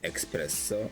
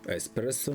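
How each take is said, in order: First: The word begins with an 'eks' sound. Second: The word begins with a plain 'es' sound. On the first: The speaker calls it wrong. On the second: The speaker calls it right.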